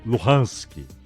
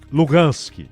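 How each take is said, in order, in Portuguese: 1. A consoante do meio é um som de h suave. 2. A consoante do meio é um som de g duro. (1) "os ucranianos chamam de Luhansk" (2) "os russos... eles chamam a região de Lugansk"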